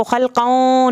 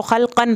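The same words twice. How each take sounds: First: खलकौं with a nasal ending, n hidden; the wrong way, nasal खलकौं; wrong nasal reading. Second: खलकन ending with a clear n; the right way, say खलकन with a full n; clear nun. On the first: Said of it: "इसको खलकौं नहीं पढ़ेंगे". (खलकौं नाक से, ग़लत तरीक़ा) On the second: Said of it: "इसको खलकन पढ़ेंगे". (खलकन में नून साफ़ ज़ाहिर) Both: Shown as a demonstration.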